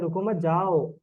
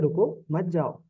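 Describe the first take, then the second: First: The pause comes after the second word. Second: The pause comes after the first word.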